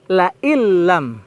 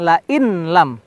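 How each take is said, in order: First: The n merges fully into the l sound. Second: The n is clearly pronounced before the l. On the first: The speaker calls it right. "tapi la illam ... Nun sakinah bertemu dengan lam, ini termasuk idgham bila guna" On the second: The speaker calls it wrong. "bukan la in lam"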